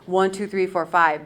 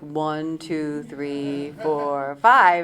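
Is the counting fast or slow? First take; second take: fast; slow. First: The counting is at a normal, quicker pace. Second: The counting is drawn out very slowly.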